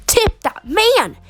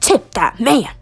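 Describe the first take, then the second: First: "Tip that man" drawn out, leaping high on MAN; high, emphatic urging. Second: "Tip that man" said firmly in a lower register; low-pitched urging. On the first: Narrator insisting you pay the barber, high emphatic repeat. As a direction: push "Tip that man" way up and stretch it. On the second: Narrator urging you to pay the barber, low first take. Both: A narrator's reading.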